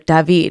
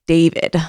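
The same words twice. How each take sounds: First: The name is said the Scandinavian way. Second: The name is said the American way.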